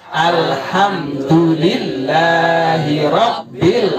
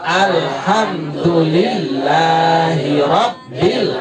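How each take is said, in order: The two takes are said the same way.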